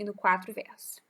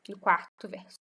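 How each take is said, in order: First: QUARTO mispronounced as "quatro"; slip of the tongue. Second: QUARTO said carefully as "quar-to"; self-correction. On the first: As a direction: say "quatro" in place of QUARTO, r after the t. Slip, then self-corrected. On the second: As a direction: sound the r before the t in QUARTO, "quar-to". Corrects the slip just made. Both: Real, not acted.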